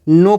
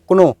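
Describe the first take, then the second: First: It starts directly with an n sound. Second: It starts with a pronounced k sound. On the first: The speaker calls it right. "के silent है। तो हमेशा हमेशा इसको क्या पढ़ना है, नो पढ़ना है" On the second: The speaker calls it wrong. "कई लोग इसको क्या करते हैं, इसको क्नो बोलते हैं"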